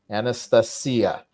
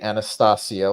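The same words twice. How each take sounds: First: It is said with a Russian pronunciation. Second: It is said with an American pronunciation. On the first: The speaker calls it right. "Anastasia, yes" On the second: The speaker calls it wrong. "Don't be an American. Don't say Anastasia like I am prone to do"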